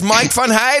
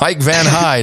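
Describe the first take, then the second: First: The name is said with a Dutch pronunciation. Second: The name is said with an English pronunciation.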